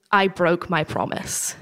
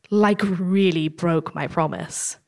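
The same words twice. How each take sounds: First: Said in the usual way. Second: Slow, weighty stress on "really broke"; emphatic repeat. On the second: Real, not acted. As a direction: stretch out "really", slowly and heavily.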